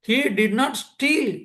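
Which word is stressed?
steal. The word steal carries the main stress. He did something else to the watch. "திருடலை, வேற ஏதோ பண்ணியிருக்கான்"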